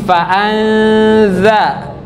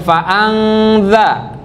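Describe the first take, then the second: First: The nasal is hidden, shaped toward 'z'. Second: The nasal is a clear 'ng' sound. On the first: The speaker calls it right. "tapi fa'anza. Samarkan posisi bibir kita dan mulut kita seperti akan menyebut huruf za" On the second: The speaker calls it wrong. "bukan fa'anza"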